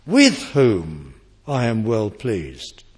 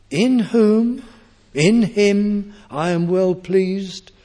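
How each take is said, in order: First: Lower, slower, with "With" stressed; the modern reading. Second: Higher, louder, slow, with stress on "In"; emphatic correct reading. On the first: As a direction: set "With whom" apart, lower and deliberate. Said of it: "as the modern translations have it". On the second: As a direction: proclaim "In whom, in him" firmly and slowly, lingering on "well". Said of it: "Or is it, as the modern translations have it". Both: Shown as a demonstration.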